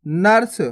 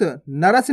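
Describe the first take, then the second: First: नर्स as one syllable, "nars"; no vowel between r and s in नर्स; half R. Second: नरस in two syllables, "na-ras"; wrong full R. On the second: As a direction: sound a whole "ra" inside नरस. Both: Shown as a demonstration. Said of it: "नरस नहीं पढ़ना".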